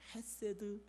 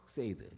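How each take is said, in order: First: The first sound is a soft, light h. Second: The first sound is a harsh, throaty scrape. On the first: "발음이 힘드니까 그냥 헤세드" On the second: "가래 뱉기 직전이에요"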